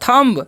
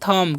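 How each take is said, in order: First: The word ends with an audible b sound. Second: The word ends on m with no b. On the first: The speaker calls it wrong. "थम्ब नहीं पढ़ना है आपको" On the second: The speaker calls it right. "पढ़ना है थम"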